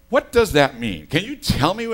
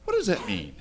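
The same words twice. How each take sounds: First: The second "What does that mean?" said louder, with "does" pushed hard; loud, baffled retelling of the phone call; louder pleading question. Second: Said in the usual way. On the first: Retold or imitated. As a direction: press the caller for an answer, loud and baffled. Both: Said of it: "And I go".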